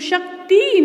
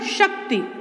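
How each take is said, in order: First: The word ends with a long ee vowel. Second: The word ends with a short i vowel. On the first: The speaker calls it wrong. "शक्ति नहीं होता" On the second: The speaker calls it right. "त पर छोटी ई की मात्रा लगती है"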